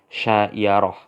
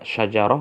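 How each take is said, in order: First: The middle consonant is a y sound. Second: The middle consonant is a j sound. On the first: "jim menjadi ya" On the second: "Karena jim menjadi ya"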